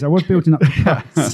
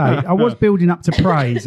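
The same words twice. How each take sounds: First: Repeated through a laugh; a little laugh through the words. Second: Said in the usual way. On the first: Real, not acted. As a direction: say it again, laughing at yourself. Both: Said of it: "what I'm trying to say".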